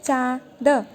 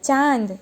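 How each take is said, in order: First: चांद said as plain "chad", the vowel kept fully oral with no nasal hum; चांद as a bare oral "chad"; no nasal sound. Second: चांद with a nasalized aa, sounded "chaand" through the nose; चांद with the nasal aa voiced through the nose; with chandrabindu. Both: Shown as a demonstration. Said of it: "उसके बाद में इसका उच्चारण change होता है".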